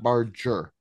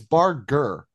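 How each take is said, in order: First: The name sounds like the word barge. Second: The name does not sound like barge. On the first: The speaker calls it wrong. "not Barger. I'm not a barge" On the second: The speaker calls it right. "it's Barger"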